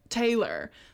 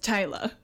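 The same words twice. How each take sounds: First: It is said in an American accent. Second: It is said in a New Zealand accent. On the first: The speaker calls it wrong. "they'd be like, Taylor" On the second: The speaker calls it right. "no, it's Taylor"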